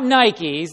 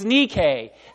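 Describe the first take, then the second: First: It is said the common English way. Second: It is said the Greek way. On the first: The speaker calls it wrong. "They pronounce it wrong" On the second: The speaker calls it right. "That's the Greek word for victory"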